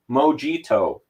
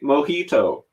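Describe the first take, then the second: First: The word is said with an exaggerated anglicized pronunciation. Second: The word is said in an ordinary way.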